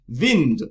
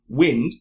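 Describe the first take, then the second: First: The word begins with a V sound. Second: The word begins with a W sound. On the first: "she's Russian, she might have said vind" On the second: "instead of saying wind"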